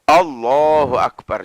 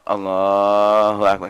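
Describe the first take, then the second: First: It is said in a firm, decisive way. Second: It is said in a lazy, half-hearted way. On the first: The worshipper shows respect before God. The speaker calls it right. "harus tegas gitu" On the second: The worshipper shows no real intent. The speaker calls it wrong. "Gak niat"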